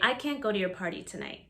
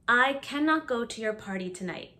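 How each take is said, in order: First: Cannot is contracted to a single syllable. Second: Cannot is said in full, as two syllables. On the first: It sounds natural and casual. The speaker calls it right. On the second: It sounds overly formal. The speaker calls it wrong.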